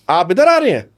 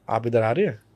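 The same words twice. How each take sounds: First: Displeased, higher and louder challenge; not happy. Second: Soft, lower welcoming tone; happy, welcoming. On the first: Coach showing an unwelcome visitor, displeased challenge. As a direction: push up hard on "आ", then fall. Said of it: "I am not happy, आप इधर क्यों आ रहे हैं". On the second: Coach showing a welcome to a visitor, soft and welcoming. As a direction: ease into it gently and quietly. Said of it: "I am very happy, I am very welcoming". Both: Shown as a demonstration.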